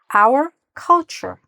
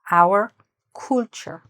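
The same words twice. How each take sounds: First: The first vowel of culture sounds like ah. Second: The first vowel of culture sounds like ooh. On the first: The speaker calls it right. "What's the correct short U sound? Ah" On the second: The speaker calls it wrong.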